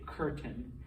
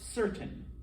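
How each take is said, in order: First: The word begins with a hard K sound. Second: The word begins with a soft S sound. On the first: The speaker calls it wrong. "You don't say" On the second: The speaker calls it right. "it sounds like an S"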